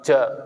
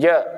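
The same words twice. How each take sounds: First: The j sound is released with escaping air. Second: The j sound is held in without air. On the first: The speaker calls it wrong. "bukan ja" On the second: The speaker calls it right. "jim dia di dalam, tidak keluar"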